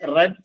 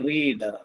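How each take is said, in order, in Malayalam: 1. സ്വരാക്ഷരം ഹ്രസ്വമാണ്, 'red' പോലെ. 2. സ്വരാക്ഷരം ദീർഘമാണ്, 'reed' പോലെ.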